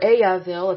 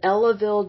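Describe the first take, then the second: First: The middle consonant is a Y sound. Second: The middle consonant is an L sound.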